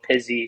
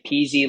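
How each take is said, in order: First: The first vowel differs from the one in easy. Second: The first vowel sounds like the one in easy.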